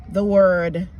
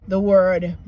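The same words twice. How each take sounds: No difference in how they are said.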